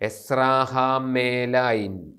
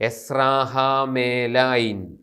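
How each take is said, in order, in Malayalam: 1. m ന് ശേഷമുള്ള സ്വരം 'e' ആണ്. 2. m ന് ശേഷമുള്ള സ്വരം 'e' ആണ്.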